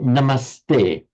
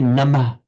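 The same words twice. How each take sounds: First: An s sound comes before the t. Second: An h sound comes before the t. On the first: The speaker calls it right. "you say" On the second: The speaker calls it wrong. "you don't say"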